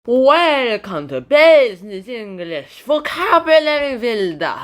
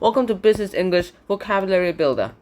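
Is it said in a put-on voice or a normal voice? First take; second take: put-on; normal. First: It is said in a put-on, unusual voice. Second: It is said in a plain, normal voice.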